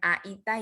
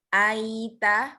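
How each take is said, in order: First: The word is broken with a sharp stop. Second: The word flows softly without a break. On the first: The speaker calls it wrong. "itu terputus" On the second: The speaker calls it right. "lembut ya"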